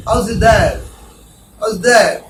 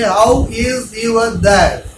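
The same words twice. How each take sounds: First: Said in the usual way. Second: Slow, stiff "How is your dad?" with every word drawn out; wrong slow version. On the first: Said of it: "Not like that". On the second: Shown as a demonstration. Teacher showing students the wrong way, slow and stiff. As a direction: drag each word out like a beginner. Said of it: "Don't say".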